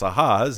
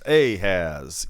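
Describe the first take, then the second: First: The name is pronounced the Hebrew way. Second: The name is pronounced with a Southern accent. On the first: "If you're Hebrew" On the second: "if you're Southern"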